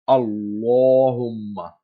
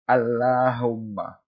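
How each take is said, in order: First: The L is heavy, with a full round mouth. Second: The L is light, with a flat mouth. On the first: The speaker calls it right. "Isa alayhi salam said" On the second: The speaker calls it wrong. "he didn't say Allahumma"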